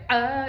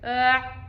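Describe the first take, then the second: First: The vowel ends with a soft release. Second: The vowel is cut off sharply in the throat. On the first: "instead of going like ah" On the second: "the sound is stopped forcefully and tight"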